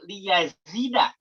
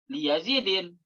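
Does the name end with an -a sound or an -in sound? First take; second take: -a; -in. First: The name ends with a plain -a sound. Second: The name ends with an -in sound. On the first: The speaker calls it right. "Tapi dibaca al baitu li yazida" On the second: The speaker calls it wrong. "Nggak boleh"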